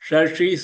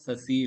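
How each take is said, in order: First: The first consonant is sh with tongue curled back. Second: The first consonant is a plain hissing s. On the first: The speaker calls it right. "ஷ நாக்கு மடிச்சுண்டு" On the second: The speaker calls it wrong. "சசி இல்ல"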